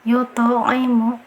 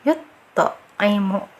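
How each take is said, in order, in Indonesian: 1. Kata itu mengalir tanpa jeda sama sekali. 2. Kata itu terpotong oleh jeda di dalamnya. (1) "jadi yut'imu" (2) "Jangan yut'imu... Jangan dijeda"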